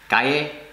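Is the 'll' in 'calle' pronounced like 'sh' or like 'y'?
y. The ll sounds like a ye sound. This is how speakers in Spain say it. "In Spanish, it's more like a ye sound"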